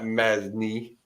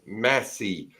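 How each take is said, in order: First: The name has an n sound before the s. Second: The name has no n sound before the s. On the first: The speaker calls it wrong. "not Masney" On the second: The speaker calls it right. "It's Massey. Get it right"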